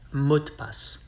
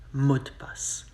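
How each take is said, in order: First: The phrase is said fast, the e dropped. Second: The same.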